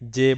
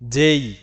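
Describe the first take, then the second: First: The letter ends in a pure 'e' vowel. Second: The letter ends in a gliding 'ei' vowel. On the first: The speaker calls it wrong. "যে বলে থাকি" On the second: The speaker calls it right. "এটা আসলে উচ্চারণ হবে যেই"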